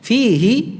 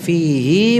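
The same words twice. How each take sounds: First: The final vowel is held short. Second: The final vowel is drawn out long. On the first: "maka haknya dibaca dengan pendek" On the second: "hi-nya dibaca panjang"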